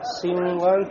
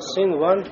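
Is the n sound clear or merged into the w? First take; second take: merged; clear. First: The n merges into the following w. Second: The n is pronounced clearly before the w. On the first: The speaker calls it wrong. "не говорим" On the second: The speaker calls it right. "а говорим синван, то есть нун"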